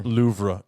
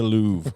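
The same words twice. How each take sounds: First: It is pronounced letter by letter, as spelled. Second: It is pronounced the usual French-like way.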